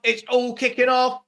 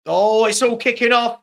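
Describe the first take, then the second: First: Said in the usual way. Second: Loud, sudden burst of excitement; excited outburst. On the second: Real, not acted. Streamer calling a brawl on the pitch, loud excited outburst. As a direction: blurt it out as the fight starts. Brawl breaks out during match.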